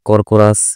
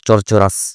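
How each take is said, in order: First: The word begins with a 'k' sound. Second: The word begins with a 'ch' sound. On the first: "কর্কোরাস বললে আমার বানানে কে চলে আসছে" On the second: "সি দিয়ে উচ্চারণ করবা, যেমন চরচরাস"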